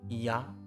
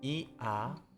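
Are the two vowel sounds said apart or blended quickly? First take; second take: blended; apart. First: The two vowel sounds are blended quickly together. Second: Two vowel sounds are said slowly and separately. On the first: "speak rapidly" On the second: "combines A sound with E sound"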